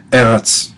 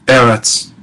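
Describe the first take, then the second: No difference in how they are said.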